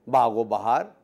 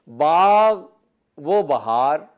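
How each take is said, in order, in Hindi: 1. दोनों शब्द आसानी से जुड़कर बोले जाते हैं। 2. दोनों शब्द अलग-अलग बोले जाते हैं। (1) "दो लफ्ज़ों को मिला के बोलते हैं" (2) "मिला के नहीं बोलता बल्कि अलग अलग बोलता है"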